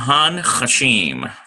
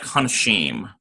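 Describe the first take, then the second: First: The word is said slowly with exaggerated syllables. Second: The word is said quickly with a slight nasal. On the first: "I'm giving a um, sort of a, a dramatized pronunciation" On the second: "it's so fast and slight"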